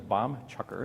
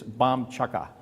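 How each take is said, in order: First: It is said with a non-Boston accent. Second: It is said with a dropped-r Boston accent. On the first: "outside of Boston, the term is" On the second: "the term of art in Massachusetts is"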